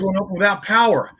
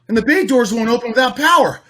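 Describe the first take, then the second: First: It sounds urgent and intense. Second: It sounds light and casual, a little golly gee.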